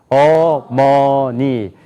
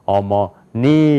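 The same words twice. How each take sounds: First: All syllables have equal pitch, loudness and length. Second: The stress is on the third syllable. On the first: "한번 한국 사람 읽어봅시다. ... 높이가 같아요. ... 크기도 같아요. ... 길이도 같아요" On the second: "그 다음에"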